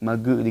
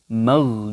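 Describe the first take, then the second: First: The gh sound bounces, adding a short vowel. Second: The gh sound is held without any bounce. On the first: The speaker calls it wrong. "banyak yang salah bacanya itu mage mage" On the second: The speaker calls it right. "ditekan dituntaskan"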